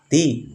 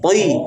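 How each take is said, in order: First: The syllable sounds thin, like a plain t. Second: The syllable sounds thick with unrounded lips. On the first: The speaker calls it wrong. "Kalau dibaca ti sama dengan ta. Salah kan?" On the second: The speaker calls it right. "Nah, gitu"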